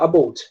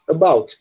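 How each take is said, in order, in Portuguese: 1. É falado com sotaque canadense. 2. É falado com sotaque americano ou britânico. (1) "mas um canadense vai falar about" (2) "Americano e britânico fala about"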